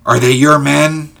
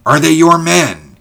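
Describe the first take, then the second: First: Said in the usual way. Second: High, loud, insistent question falling sharply at the end; impatient. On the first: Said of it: "asked George". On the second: A narrator's reading. George when Ulrich did not answer, impatient. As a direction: press the question harder, demanding an answer. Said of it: "he repeated impatiently".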